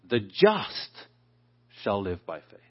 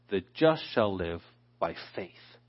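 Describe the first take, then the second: First: The stress is on the word just. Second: The stress is on the word faith.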